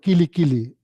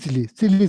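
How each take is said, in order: First: Each word begins with a K sound. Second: Each word begins with an S sound. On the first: The speaker calls it right. "You are supposed to pronounce like kili kili" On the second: The speaker calls it wrong. "that person saying silly silly"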